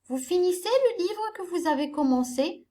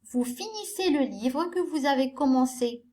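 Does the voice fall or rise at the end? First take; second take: rises; falls. First: The voice rises at the end like a question. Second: The voice falls at the end like a statement. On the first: It asks a question. The speaker calls it right. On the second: It states a fact. The speaker calls it wrong.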